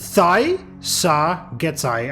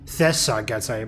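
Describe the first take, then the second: First: The first vowel is not an 'e' sound. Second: The first vowel is an 'e' sound. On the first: The speaker calls it right. "I just realized it's" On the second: The speaker calls it wrong. "I just called them The, like that is an, an E"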